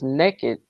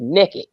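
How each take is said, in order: First: It is said with the standard vowel, 'nay-ked'. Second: It is said the Southern way, 'nekkid'.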